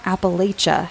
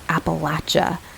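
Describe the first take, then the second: First: It uses a non-local, outsider pronunciation. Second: It uses the local West Virginia pronunciation. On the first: This is how outsiders commonly say it. The speaker calls it wrong. "not Appalachia, which is the way I grew up saying it" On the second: This is how people from the region say it. The speaker calls it right. "that's how they say it, as Appalachia"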